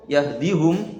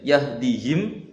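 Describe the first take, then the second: First: The last syllable is said with a u vowel. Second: The last syllable is said with an i vowel. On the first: This is another reciter's reading with the u vowel kept. "yahdihum Ruwais" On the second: This is one reciter's reading without the u vowel. "yahdihim itu Rauh"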